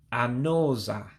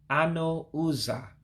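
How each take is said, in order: First: The u sound before 'za' is dropped. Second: The u sound before 'za' is kept. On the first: The speaker calls it right. "you drop the U so it becomes anoza" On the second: The speaker calls it wrong. "the words would be ano uza"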